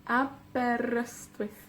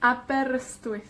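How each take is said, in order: First: Aberystwyth slowly split in four; soft, slow, separated Aberystwyth; syllable by syllable. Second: Said in the usual way. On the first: Shown as a demonstration. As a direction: count out a, ber, yst, wyth in Aberystwyth. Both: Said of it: "con cuatro sílabas".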